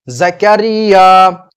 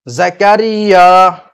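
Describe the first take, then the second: Both takes have the same delivery.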